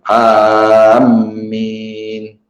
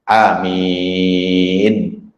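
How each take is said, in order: First: The first vowel is long and the m doubled. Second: The first vowel leans toward an e sound. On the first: "dipanjangkan alif, mimnya itu bertasydid" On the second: "dengan imalah"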